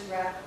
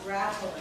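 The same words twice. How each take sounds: First: "rattling" in two syllables, rat-ling; correct rattling. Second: "rattling" drawn out into three syllables; mispronounced rattling. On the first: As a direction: say "rattling" with no vowel before the L. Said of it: "It is rattling". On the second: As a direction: say "rattling" with an extra vowel before the L. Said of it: "The roof is not rattling". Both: Shown as a demonstration.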